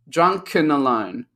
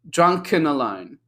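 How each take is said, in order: First: The word 'and' is reduced and linked. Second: The same.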